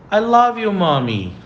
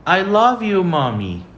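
First: I love you, Mommy with love stressed high and loud; model phrase. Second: I love you, Mommy again with love stressed high; model phrase repeated. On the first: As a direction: say it sweetly for the class to repeat. (frase modelo com ênfase em love) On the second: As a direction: repeat it for the class. (frase modelo repetida com ênfase em love) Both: Shown as a demonstration. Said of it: "Segunda frase".

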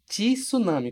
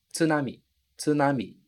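First: "Tsunami" said as "tisunami", with an extra i after the t; teacher demonstrating the common mistake "tisunami"; wrong extra i. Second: "Tsunami" with a clean "tsu", no i after the t; teacher models "Tsunami" the Japanese way, tsu-na-mi; correct tsu. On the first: Teacher shows students the wrong way: "Tsunami" with a Brazilian i. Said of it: "como se tivesse um i aqui". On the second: Teacher drills students on the correct "Tsunami": clean tsu. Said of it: "eliminar completamente esse i". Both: Shown as a demonstration.

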